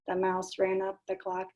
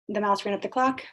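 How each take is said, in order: First: It is said in a flat, mechanical robot voice. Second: It is said in an ordinary speaking voice. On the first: "they like to do the robot one" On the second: "you say the nursery rhyme first"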